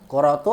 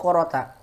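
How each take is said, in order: First: The word ends with an 'u' vowel. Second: The word ends with an 'a' vowel. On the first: The word is marked as a subject. The speaker calls it wrong. "yang pertama ... quratu" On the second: The word is marked as a direct object. The speaker calls it right. "Qurata, sahih ... mansub"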